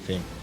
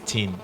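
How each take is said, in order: First: It starts with a th sound. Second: It starts with a t and sounds like teen. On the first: It is the English way of saying it. The speaker calls it right. "if you're speaking English, you have to say thing" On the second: It is the Creole way of saying it. The speaker calls it wrong. "So in Creole, we can say teen"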